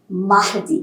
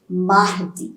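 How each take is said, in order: No difference in how they are said.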